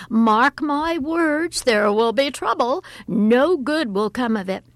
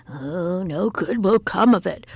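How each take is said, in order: First: Alarmed mother foretelling trouble; alarmed warning. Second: Loud warning at usual pitch; lightly voiced gloomy chorus of relatives; relatives' warning. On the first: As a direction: warn with dramatic alarm. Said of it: "cried her mother in alarm". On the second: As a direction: echo the warning, less alarmed and emphatic. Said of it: "warned the uncles". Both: A narrator's reading.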